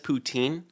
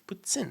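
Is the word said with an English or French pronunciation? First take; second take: English; French. First: It is said with an anglicized English pronunciation. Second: It is said with a French pronunciation. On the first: The speaker calls it wrong. "everyone says poutine. That's not how you say it" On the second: The speaker calls it right. "it's poutine. Okay, it's French"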